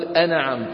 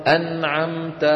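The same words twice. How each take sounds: First: أنعمت as "ana'amta"; wrong bounced noon. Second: أنعمت with a clean vowelless ن; correct still noon. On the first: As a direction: add a stray vowel after ن in أنعمت. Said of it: "ولا نقول أنعمت". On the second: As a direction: hold ن closed in أنعمت, straight into ع. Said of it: "أنعمت كيف ننطقها؟". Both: Shown as a demonstration.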